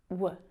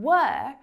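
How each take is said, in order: First: The word is reduced to a weak w sound. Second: The word is said fully with a clear vowel.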